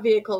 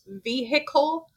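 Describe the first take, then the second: First: The word is said with about two syllables. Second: The word is said with almost three syllables. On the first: This is how the speaker thinks it should be said. The speaker calls it right. "it is not vehicle" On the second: This is how local people say it. The speaker calls it wrong. "like three syllables almost"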